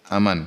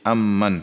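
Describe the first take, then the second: First: The m sound is short and single. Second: The m sound is long and doubled. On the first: "qiraah dengan tidak mentasydid mim" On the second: "qiraah yang kedua dengan mentasydid huruf mim"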